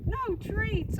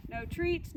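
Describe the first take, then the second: First: "No treats." said higher and louder, "No" punched hard with a falling tune; mock-stern "No treats."; emphatic no treats. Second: Said in the usual way. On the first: Shown as a demonstration. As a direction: hit "No" high and firm, then drop. Trainer repeats the rule for emphasis.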